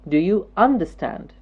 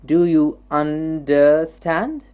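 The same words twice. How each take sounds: First: The word is said smoothly as in speech. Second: The word is chopped into small separate bits. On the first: The speaker calls it right. "We say" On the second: The speaker calls it wrong. "We don't say"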